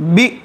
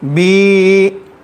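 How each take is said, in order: First: The vowel is cut off with a jerk. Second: The vowel is drawn out long. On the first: "झटका अगर देंगे तो बी" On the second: "खींचेंगे तो ये है बी"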